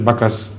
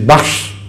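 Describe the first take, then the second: First: The name has two syllables with a vowel inserted. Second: The name is one syllable ending in sh. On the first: This is how the community there says it. The speaker calls it wrong. "They pronounce the word Baksh as Bakas" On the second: This form keeps the word's original meaning. The speaker calls it right. "the correct pronunciation of the word Bakas, which is Baksh"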